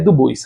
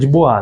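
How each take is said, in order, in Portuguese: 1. O nome é falado do jeito brasileiro de português. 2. O nome é falado com a pronúncia original. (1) "nós somos brasileiros, é Du Bois" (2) "mas a pronúncia é de Bois"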